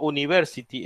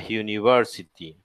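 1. Empieza con un sonido de vocal simple. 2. Empieza con un sonido consonante de 'y'. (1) "es una vocal" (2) "Como una J"

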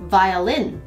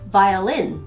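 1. 英語の発音で言っています。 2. 英語の発音で言っています。

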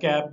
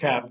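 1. यह शब्द क्षेत्रीय भारतीय लहजे में कहा गया है। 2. यह शब्द ब्रिटिश लहजे में कहा गया है। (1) "या कैप भी कह सकते हैं आप अपने जो भी इलाकई लहजे में" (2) "लेकिन ब्रिटिश इसको कैप कहेंगे"

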